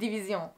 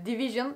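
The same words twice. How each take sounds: First: It is pronounced the French way. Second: It is pronounced the English way. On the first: "Fransızcası" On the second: "İngilizcesi"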